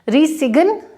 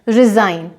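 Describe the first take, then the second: First: The g is sounded in the word. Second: The g is silent in the word. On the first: The speaker calls it wrong. "रिसिगन नहीं है" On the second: The speaker calls it right.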